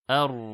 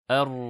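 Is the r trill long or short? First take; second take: short; short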